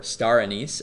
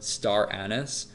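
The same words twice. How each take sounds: First: "anise" said as uh-NEECE, stress last; "anise" with stressed long ee ending; ah-NEECE pronunciation. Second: "anise" said as AN-iss, stress first; "anise" rhyming roughly with "menace"; AN-iss pronunciation. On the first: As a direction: say "anise" so it ends like "niece". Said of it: "as some people call it". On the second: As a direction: say "anise" with stress up front, short unstressed ending. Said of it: "about the pronunciation of star anise". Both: Shown as a demonstration.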